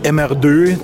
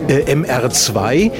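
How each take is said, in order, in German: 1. Er wird auf die französische Art ausgesprochen, wie merde. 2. Er wird auf die übliche deutsche Art ausgesprochen. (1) "den man dann auch mal ganz schnell als Merde ausgesprochen hat" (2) "Toyota hatte den MR2"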